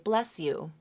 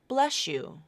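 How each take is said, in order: First: An S sound links into the Y sound. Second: An SH sound replaces the S and Y. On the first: "just make an S to a y link, that's fine" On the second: "this S H sound will be substituted instead"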